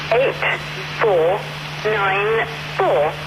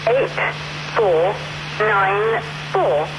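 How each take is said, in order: Both takes have the same delivery.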